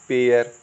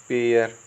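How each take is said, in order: Both takes have the same delivery.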